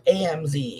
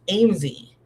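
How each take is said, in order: First: The name is spelled out as separate letters. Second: The name is said as one word, like Amesy. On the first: The speaker calls it wrong. "it's not A M Z" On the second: The speaker calls it right. "It's A M Z. Like Amy, Amesy"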